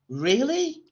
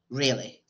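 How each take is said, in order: First: The voice rises at the end like a question. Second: The voice falls at the end, not questioning. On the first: It is a genuine question. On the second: It is not a genuine question.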